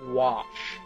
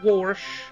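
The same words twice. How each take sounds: First: It is said without any R sound. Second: It is said with an R sound inside. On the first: The speaker calls it right. "there's no R in the word wash" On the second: The speaker calls it wrong. "not wash"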